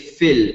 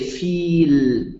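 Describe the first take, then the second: First: The vowel is cut short. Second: The vowel is held long. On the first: The speaker calls it right. "You say fil. It becomes short" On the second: The speaker calls it wrong. "you don't pronounce the long vowel. You don't say feel"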